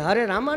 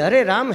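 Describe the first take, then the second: First: The name ends with an added 'a' vowel. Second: The name ends on the 'm' sound. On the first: The speaker calls it wrong. "हरे रामा नहीं है" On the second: The speaker calls it right. "हरे राम है"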